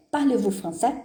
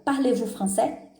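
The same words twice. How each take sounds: First: Said in the usual way. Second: "Parlez-vous français?" said slowly, each word clear, rising at the end; teacher models the inverted question slowly; slow French question. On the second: Shown as a demonstration. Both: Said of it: "Então, vai virar".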